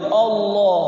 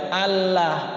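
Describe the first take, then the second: First: The 'lah' vowel sounds like an o. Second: The 'lah' sound is light and thin. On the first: "Kalau Allah alifnya pakai O" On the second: "jangan tipis"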